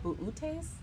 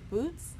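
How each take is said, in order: First: The name is said with several separate syllables. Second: The name is said as one short syllable. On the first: This is how others say it. "I've heard it called buutes" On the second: This is how the speaker says it. "I pronounce it boots"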